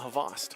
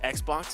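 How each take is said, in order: First: The name is said like Havas. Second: The name is said like the word Xbox. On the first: It is said the way the player says it. The speaker calls it right. "he said that it's actually Havas" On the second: It is read the way the name looks. The speaker calls it wrong. "Xbox is how it looks face value"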